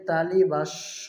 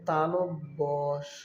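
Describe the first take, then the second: First: It is said as 'talibasso'. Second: It is said as 'talobbo sho'. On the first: The speaker calls it wrong. "অনেকে তালিবাস্য বলে থাকে" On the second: The speaker calls it right. "বর্ণটির সঠিক উচ্চারণ হবে"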